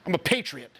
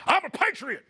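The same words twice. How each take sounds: First: Said in the usual way. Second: Much higher, laughing proud cry of I'm a patriot; imitating Alex. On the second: Coach imitates assistant Alex, high and laughing. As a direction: ham up the proud patriot line through a laugh. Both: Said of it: "Alex here".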